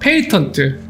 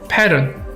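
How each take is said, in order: First: Said with a clear Korean-style 't' sound. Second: Said American-style with a flapped, dropped 't'. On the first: "우리나라식 영어를 생각하면 아마 페이턴트 뭐 이런 식으로 발음" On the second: "미국식 발음은 특허 같은 경우는 패런이에요"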